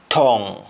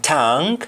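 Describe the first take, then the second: First: "tongue" said tong, with O; Jamaican pronunciation. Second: "tongue" said tang, with "ah"; English-style "tongue", open "ah" vowel; English pronunciation. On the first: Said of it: "in Jamaican". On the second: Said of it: "in English". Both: Shown as a demonstration.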